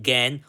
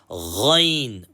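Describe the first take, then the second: First: It begins with a plain hard g sound. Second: It begins with a throaty, rasping gh sound. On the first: The speaker calls it wrong. "We don't say gan" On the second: The speaker calls it right. "What do we say, children? Ghain"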